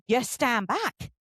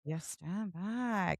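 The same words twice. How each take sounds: First: You stand back, drawn out slow; firm slow advice; slow emphatic. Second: Hushed, slow "You stand back"; soft slow murmured repeat; quiet echo. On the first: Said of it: "you don't know how they're gonna react". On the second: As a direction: repeat it softly, almost to yourself. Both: Shown as a demonstration.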